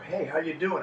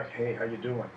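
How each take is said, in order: First: Happy. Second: Glum frown. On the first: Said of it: "my eyebrows are up and I look happy". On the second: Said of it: "your eyebrows are gonna go down". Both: Shown as a demonstration.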